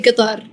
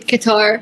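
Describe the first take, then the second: First: It is said with a local Qatari dialect pronunciation. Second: It is said with an English pronunciation. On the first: "in Qatari dialect it's very weird, but we say" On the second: "in English they say"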